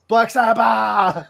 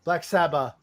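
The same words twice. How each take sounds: First: Metal scream. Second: Said in the usual way. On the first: Shown as a demonstration. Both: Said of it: "it's like you're screaming".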